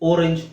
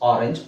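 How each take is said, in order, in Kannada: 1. ಮೊದಲ ಸ್ವರ 'oh' ತರಹ ಇದೆ. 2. ಮೊದಲ ಸ್ವರ 'ah' ತರಹ ಇದೆ. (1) "ಅಂತ ಹೇಳ್ತಾ ಇಲ್ಲ" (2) "ಓ ಅನ್ನೋ ಅಕ್ಷರದ ಉಚ್ಚಾರಣೆ ಆ"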